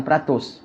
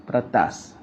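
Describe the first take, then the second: First: "peratus" said pra-tos with a rounded o; the mistaken "peratus" set against the right word; wrong reading. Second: "Peretas" said low and soft, pra-tas ending in a; correct reading. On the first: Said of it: "bukan peratus". (sebutan salah "peratus", bunyi pra-tos) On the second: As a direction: settle it quietly on "Peretas". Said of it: "peretas tu katil, bukan peratus". (sebutan betul "Peretas", perlahan dan rendah) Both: Shown as a demonstration.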